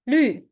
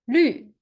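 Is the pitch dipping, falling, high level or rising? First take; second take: falling; falling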